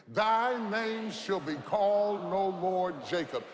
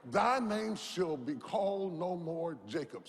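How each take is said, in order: First: Louder, said together in unison; louder call with congregation. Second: Said in the usual way. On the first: Shown as a demonstration. Preacher leads church in loud unison. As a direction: proclaim it with the crowd. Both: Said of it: "Say that with me".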